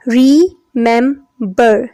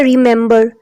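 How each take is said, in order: First: remember slowly as re, mem, ber; syllable division. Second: Said in the usual way. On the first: Shown as a demonstration. Teacher showing class the division, remember in three slow beats. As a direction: pause between each syllable of remember. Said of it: "there are three syllables". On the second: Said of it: "syllable की division हम देखते हैं".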